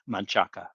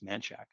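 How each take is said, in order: First: The name is said as it is spelled. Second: The name is said the local way.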